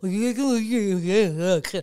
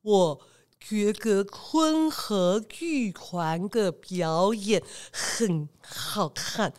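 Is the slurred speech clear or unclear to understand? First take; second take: unclear; clear. First: Slurred speech, and the words cannot be understood. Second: Slurred speech, but the words remain understandable.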